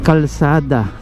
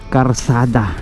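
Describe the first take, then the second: First: The second consonant sound is an L. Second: The second consonant sound is an R. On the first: The speaker calls it right. "It's kalsada" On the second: The speaker calls it wrong. "not karsada"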